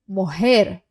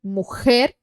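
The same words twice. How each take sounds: First: "mujer" with a soft h for the J. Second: "Mujer" with a hard rasped J like kh; strong J. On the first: Teacher repeating the soft J for students. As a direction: breathe the J in "mujer" gently. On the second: Teacher repeating the strong J for students. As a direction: force the J in "Mujer" from the throat. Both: Shown as a demonstration.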